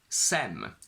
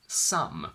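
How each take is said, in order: First: The vowel sounds like the one in bed. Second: The vowel sounds like the one in sum. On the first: "which doesn't exist" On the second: "which actually means S O M E or S U M"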